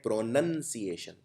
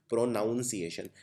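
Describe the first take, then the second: First: प्रोनंसिएशन with a short "nun" sound, pro-NUN-see-ay-shun; प्रोनंसिएशन said the correct way, no "nown"; right pronunciation. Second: प्रोनाउंसिएशन with the wrong "nown" sound, pro-NOUN-see-ay-shun; प्रोनाउंसिएशन said the common wrong way, like pronoun; wrong pronunciation. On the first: Teacher giving students the correct प्रोनंसिएशन. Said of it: "इसको बोलते हैं". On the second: Teacher showing students the common wrong प्रोनाउंसिएशन. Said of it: "इसको प्रोनाउंसिएशन नहीं बोलते हैं". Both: Shown as a demonstration.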